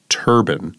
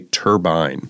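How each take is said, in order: First: The second syllable sounds like 'ban'. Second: The second syllable rhymes with 'fine'. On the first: "Linda said turban" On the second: "you say turbine"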